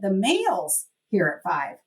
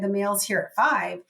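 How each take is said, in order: First: The word mail gets extra stress. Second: No single word gets special stress. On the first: Other things also come at five. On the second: The delivery time is unusual.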